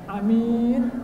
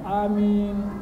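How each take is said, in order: First: Both vowels are said short. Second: Both vowels are drawn out long. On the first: A person who can be trusted. The speaker calls it wrong. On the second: May God grant our prayer. The speaker calls it right.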